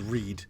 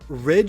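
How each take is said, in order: First: The vowel is a long ee sound. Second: The vowel is a short i sound. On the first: "she goes read, and that's because I in Japanese makes the e sound" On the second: "And then for rid"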